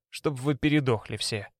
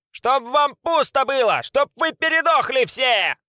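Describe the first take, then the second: First: Said in the usual way. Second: High, slow shrieked curse; screaming curse. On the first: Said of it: "перечёркнутые этим". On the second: A narrator's reading. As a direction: scream curses after them. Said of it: "кричала им вслед отборным матом".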